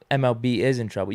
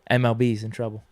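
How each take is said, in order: First: The word 'is' is said in full. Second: The word 'is' is contracted onto MLB. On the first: "You can say it like that" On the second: "the quick way to say it"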